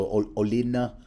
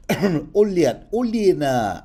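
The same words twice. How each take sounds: First: Said in the usual way. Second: Put-on "Olenna" said louder and higher in a jokey Russian accent; hammed-up Russian accent on "Olenna"; mock Russian accent. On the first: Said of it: "in this case I'm gonna pronounce". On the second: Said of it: "in the proper Tyrell Russian accent".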